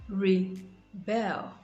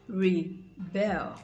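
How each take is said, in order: No difference in how they are said.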